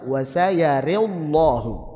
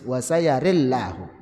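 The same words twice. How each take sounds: First: Tilted ra vowel, heavy lam. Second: Tilted ra vowel, light lam. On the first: "ra-nya dibaca imalah dan lamnya tebal" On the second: "ra-nya dibaca imalah dan lamnya tipis"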